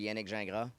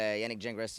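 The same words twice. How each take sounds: First: The surname ends without an S sound. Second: The surname ends with an S sound. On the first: This is the original French pronunciation. "if you said it like really from French, it'd be Yannick Gingras. That'd be no S" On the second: This is how people pronounce it locally in English. "in English, yeah, I guess you would say with an S"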